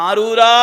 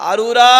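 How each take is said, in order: Both takes have the same delivery.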